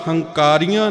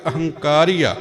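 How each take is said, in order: First: The word starts directly with an h sound. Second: The word starts with an a vowel before h. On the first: The speaker calls it wrong. "ਇਹਦਾ ਉਚਾਰਨ ਹੰਕਾਰੀਆਂ ਨਹੀਂ ਕੀਤਾ ਜਾਣਾ ਚਾਹੀਦਾ" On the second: The speaker calls it right. "ਐੜੇ ਨੂੰ ਅਗੇਤਰ ਲਗਾ ਕਰਕੇ ਉਚਾਰਨ ਕਰਕੇ"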